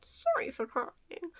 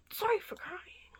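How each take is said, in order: First: Slow, drawn-out fake-sad apology; laying the sadness on thick, higher and voiced; mock layered-on sadness. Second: High, slow, put-on weepy apology; hammed-up tearful apology, half whispered; mock sad voice. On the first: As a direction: stretch the words in imitated sorrow. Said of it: "gotta layer the thickness of feeling sad again". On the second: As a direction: mimic fake sadness with a high, thinned voice. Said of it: "why does his voice, like, keep changing".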